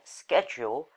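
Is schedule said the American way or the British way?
American. The word is said the American way. "in America"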